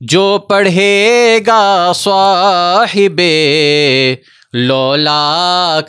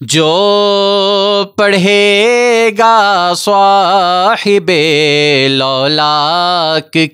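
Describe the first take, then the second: First: A breath break splits the phrase in the middle. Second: The whole phrase is said in one breath. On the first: The speaker calls it wrong. "ये गलत तरीका है" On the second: The speaker calls it right. "पूरी सांस के साथ ये आपने एक ही टेक में कहना है"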